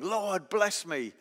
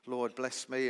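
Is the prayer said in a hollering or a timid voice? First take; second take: hollering; timid. First: It is said loudly, almost shouted. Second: It is said softly and timidly. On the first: The one praying is bold and forceful. "was he hollering" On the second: The one praying is humble. "Was he very humble and timid"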